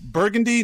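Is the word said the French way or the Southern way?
French. It is said with a French-style pronunciation. The speaker calls it wrong. "you're giving the words a French, you know, a French accent"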